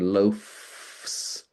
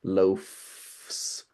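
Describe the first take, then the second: First: The consonant before the final S is a voiceless F. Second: The consonant before the final S is a voiceless F.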